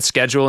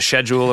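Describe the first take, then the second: First: The word is said in an American accent. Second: The word is said in a British accent. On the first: This is how the speaker actually says it. The speaker calls it wrong. "I'm sure I've said schedule" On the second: This is how it is said where the others live. The speaker calls it right. "instead of schedule"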